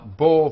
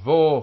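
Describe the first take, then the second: First: The syllable starts with a b sound. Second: The syllable starts with a v sound. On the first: This follows the Spanish and Portuguese reading tradition. "this b in Spanish and Portuguese is always pronounced b" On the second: This follows the modern Hebrew reading. "in modern Hebrew, it is changed to v"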